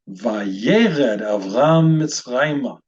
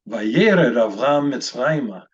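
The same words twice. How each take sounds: First: It is read at a slower pace. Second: It is read at a faster pace.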